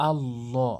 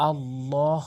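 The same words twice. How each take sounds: The two takes are said the same way.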